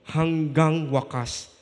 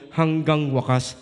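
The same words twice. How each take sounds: First: Hanggang wakas said slowly, with weight on hanggang; slow emphasis. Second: Said in the usual way. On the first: Shown as a demonstration. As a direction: lean on hanggang and draw out Hanggang wakas. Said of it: "Nakalagay sa dulo, hanggang wakas". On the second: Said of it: "Nakalagay sa dulo".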